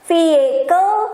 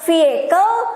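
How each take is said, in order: First: A y sound replaces the middle h. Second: The h in the middle is not said. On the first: "bisa juga ada Y-nya" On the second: "H-nya nggak disebutin"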